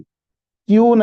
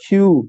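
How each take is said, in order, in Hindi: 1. यह सादे 'k' ध्वनि से शुरू होता है। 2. यह एक कठोर, गले से निकलने वाली 'kh' जैसी ध्वनि से शुरू होता है। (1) "क्यू नहीं है" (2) "खे की आवाज के साथ क्यू"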